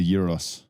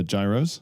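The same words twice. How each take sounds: First: Gyros said as "YEE-ros", starting with a Y sound; current pronunciation. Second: Gyros said as "JAI-ros", with an English J; former pronunciation. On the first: Speaker gives how they now say gyros, as "YEE-ros". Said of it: "Now I say gyros". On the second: Speaker admits how they used to say gyros, as "JAI-ros". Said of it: "I used to say, uh, gyros". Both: Shown as a demonstration.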